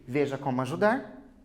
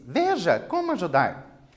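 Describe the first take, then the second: First: It is said in a calm, neutral tone. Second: It is said in an excited, enthusiastic tone.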